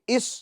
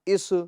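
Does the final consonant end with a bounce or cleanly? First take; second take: clean; bounce. First: The final consonant ends cleanly without bounce. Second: The final consonant ends with an echoing bounce. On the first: The speaker calls it right. "बल्कि इस" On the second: The speaker calls it wrong. "इसके अंदर आवाज को हम लौटाएंगे नहीं, यानी इस तरह इस, इस, ये गलत है"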